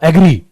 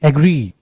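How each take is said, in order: First: The final vowel is clipped short. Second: The final vowel is drawn out long. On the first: The speaker calls it wrong. "कई बार आप इस एग्री को ऐसे बोलते हैं जैसे ये ऐसे लिखा हो" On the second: The speaker calls it right. "ई थोड़ा सा खींचना"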